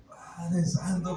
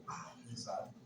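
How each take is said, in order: First: Drawn-out stunned Padre santo, slow; slow amazed exclamation. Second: Whispered "Padre santo" under the breath; hushed astonished whisper; awed whisper. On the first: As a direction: let "Padre santo" stretch out slowly in disbelief. Stunned on hearing news. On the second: Awed on finding the money. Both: Retold or imitated.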